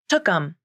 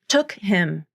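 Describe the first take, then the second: First: The H is dropped, giving a smooth 'tookum'. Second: The H in 'him' is clearly pronounced. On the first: "The phrase with the reduced pronoun sounds much more smooth and connected" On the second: "If you don't reduce the word him in the phrase took him, then you'll have two consonants linking up"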